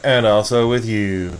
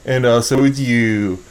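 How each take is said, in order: First: Slow, reverent churchgoer reply; solemn church response. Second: Slow, reverent mass response; solemn church response. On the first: Retold or imitated. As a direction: intone it like a congregation. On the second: Shown as a demonstration. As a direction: intone it slowly, churchlike. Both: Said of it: "Did you say it like that?".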